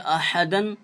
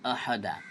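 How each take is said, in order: First: The word ends with a nasal 'an' sound. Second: The word ends with a long 'a' sound. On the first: The reading continues without stopping. "दो ज़बर" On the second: The reading stops on this word. "वक़्फ़ करना हो तो एक ज़बर के साथ अलिफ पढ़ा जाता है"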